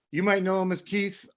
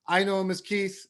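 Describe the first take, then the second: First: "might" stressed, the rest light. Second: "I" stressed, the rest light. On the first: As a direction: lean on the word "might". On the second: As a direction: lean on the word "I" to contrast. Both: Shown as a demonstration.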